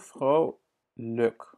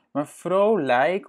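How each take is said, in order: First: Vrolijk with a weak schwa ending, "frow-luk"; correct vrolijk. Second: Vrolijk with a full ei in the last syllable, slow and raised; wrong vrolijk. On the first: Teacher gives the learner the natural vrolijk. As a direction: let the lijk in vrolijk fade to a light schwa. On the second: Teacher shows the pronunciation to avoid, vrolijk with ei. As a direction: overstress the lijk in vrolijk as a mistake. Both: Shown as a demonstration. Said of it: "on dit plutôt vrolijk".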